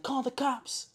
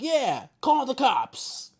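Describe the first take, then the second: First: High-pitched mock cry for help; high, held-back retold yell; imitated yell. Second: High, loud, drawn-out mock holler; slow, high-pitched imitation of a shout; imitated shout. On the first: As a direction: mimic a woman yelling, without full volume. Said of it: "she's yelling". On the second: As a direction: stretch it out like a man hollering. Man echoes the yelled request.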